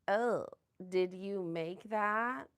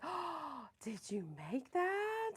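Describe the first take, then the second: First: It is said with a sneering, negative tone. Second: It is said with an admiring, positive tone.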